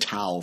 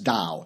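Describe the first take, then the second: First: The word begins with a T sound. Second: The word begins with a D sound. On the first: The speaker calls it wrong. "I said Tao for a long time until somebody corrected me" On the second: The speaker calls it right. "said it in Chinese, that's"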